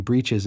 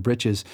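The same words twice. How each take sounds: First: Breeches with a long E, as in "breed"; first vowel of breeches as ee; long E pronunciation. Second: Britches with a short i, as in "rich"; Southern britches, short first vowel; short I pronunciation. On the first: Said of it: "was a long E sound". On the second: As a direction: say britches to rhyme with riches. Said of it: "one that comes to mind is britches". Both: Shown as a demonstration.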